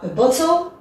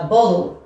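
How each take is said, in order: First: It is said with a British accent, crisp T. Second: It is said with a Canadian accent, D-like T.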